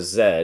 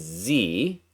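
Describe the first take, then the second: First: The letter is said the British way, as zed. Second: The letter is said the American way, as zee.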